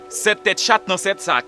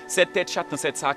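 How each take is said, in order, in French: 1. La phrase est dite à un rythme normal. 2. La phrase est dite à un rythme rapide.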